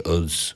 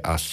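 First: "us" said the Liverpool way, ending in a buzzing z, like "uz". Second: Said in the usual way. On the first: Retold or imitated. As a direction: give "us" a Liverpool twist, "uz". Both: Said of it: "he wouldn't say us, he'd say us".

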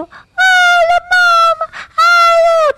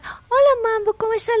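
First: Much higher and louder sing-song hello; silly high greeting. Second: Said in the usual way. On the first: Shown as a demonstration. Co-host shows the wrong way to greet her dog, squealing high. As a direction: overdo the hello like squealing at a baby. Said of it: "no sé qué, no". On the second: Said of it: "tú le hablas normal".

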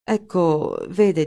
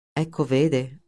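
First: Halting Ecco, vede that breaks off; hesitant start. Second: Ecco, vede thrown back mockingly, a bit lower; sarcastic echo. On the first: Wegener groping for an excuse before his boss, hesitant. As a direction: begin an excuse and stall. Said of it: "e si interruppe". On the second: Linder mocking Wegener's stalled excuse, sarcastic. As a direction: mimic his stammer with scorn. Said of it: "sbottò Linder sarcastico". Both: A narrator's reading.

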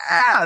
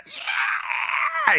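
First: High mock concert yell; high-pitched crowd-style "yeah"; concert cheer. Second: Very high, held-back scream; thin, far higher scream, softly done; mock blood-curdling scream. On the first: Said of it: "not like in a concert where you're like". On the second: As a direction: imitate a blood-curdling scream at reduced volume. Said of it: "it's just a blood-curdling scream". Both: Shown as a demonstration.

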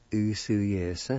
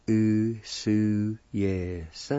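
First: "Usu, yes" run together as one word, oo-su-YEH-suh; joined-up pronunciation. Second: "Usu, yes" stretched into separate syllables. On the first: Teacher giving the whole word, "Usu, yes" joined up. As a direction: blend "Usu, yes" without gaps. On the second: Teacher repeating it for learners, "Usu, yes" in slow syllables. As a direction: draw out "Usu, yes" piece by piece. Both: Shown as a demonstration. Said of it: "And it's pronounced like this".

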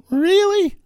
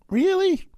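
First: Loud squeaky puberty crack. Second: Squeaky high disbelieving really; voice cracking. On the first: Shown as a demonstration. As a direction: crack like a teenage boy. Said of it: "Like I'm a fourteen-year-old boy going through puberty. My voice cracked". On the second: Retold or imitated. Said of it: "And I said it like that".

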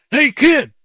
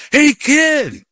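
First: High, loud imitation of a gruff summons; retold yell. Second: Drawn-out, very high imitated shout; retold louder yell. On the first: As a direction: call out as the man yelling after you. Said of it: "he yells at me". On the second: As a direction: yell after someone who ignored the first call. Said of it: "He yells louder".

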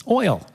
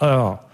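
First: Said in the usual way. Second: Imitated Texan drawl on "oil"; Texan accent. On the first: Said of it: "I asked the guy". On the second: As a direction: say "oil" as a puzzling Texan would. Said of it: "having a little trouble understanding them".

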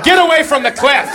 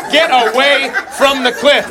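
First: Mock panicky mom. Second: Mock drawn-out fretting mom. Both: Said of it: "the mom is like".

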